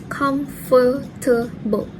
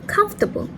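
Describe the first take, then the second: First: The middle schwa vowel is kept. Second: The middle schwa vowel is dropped. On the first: "In the standard pronunciation" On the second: "omitting the schwa sound in the word"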